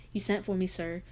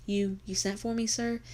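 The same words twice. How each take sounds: First: Said in the usual way. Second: Thin, squawky stammer, pitch jumping up at the end; frightened mill girl croaking out a question; hen cackle. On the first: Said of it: "her voice grow stronger". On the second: A narrator's reading. Mill girl to the agent, cracking like a hen cackle. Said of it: "It came out like a hen cackle".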